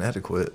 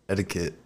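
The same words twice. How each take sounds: First: "etiquette" said with a kw, ending in "-kwit"; odd "Australian" pronunciation. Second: Said in the usual way. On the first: Retold or imitated. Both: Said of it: "it's different accent".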